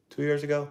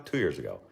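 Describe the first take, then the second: First: TWO YEARS AGO asked high and soft; questioning. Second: TWO YEARS AGO falling low and soft; confirming. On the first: Asking himself, then answering. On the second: Answering his own question. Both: Real, not acted.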